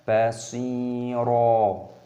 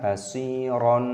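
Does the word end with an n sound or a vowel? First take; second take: vowel; n sound. First: The word ends in a long open vowel. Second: The word ends with an added n sound. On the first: The speaker calls it right. "cara membacanya basiro" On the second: The speaker calls it wrong. "bukan basiron, itu salah"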